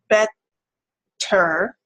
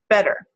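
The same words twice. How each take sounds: First: The middle t is held and prolonged. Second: The middle t is a very brief tap. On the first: "the one where we can prolong and hold on to it" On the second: "It's really short"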